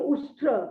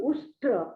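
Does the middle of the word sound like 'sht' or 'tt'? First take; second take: sht; sht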